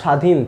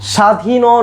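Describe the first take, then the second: First: The word stops sharply on the final n. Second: The word ends with an added o vowel. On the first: The speaker calls it right. "স্বাধীন থেমে গেছে" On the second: The speaker calls it wrong. "স্বাধীনও না"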